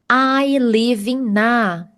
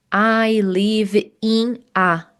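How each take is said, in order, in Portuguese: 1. O n de 'in' se junta ao 'a'. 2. 'In' e 'a' são ditas como palavras separadas. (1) "Então vamos juntar, então vai ficar ina" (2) "Não precisa dizer"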